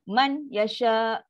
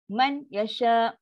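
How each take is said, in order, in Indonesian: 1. Huruf n dibunyikan dengan jelas sebelum y. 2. Huruf n dibunyikan dengan jelas sebelum y.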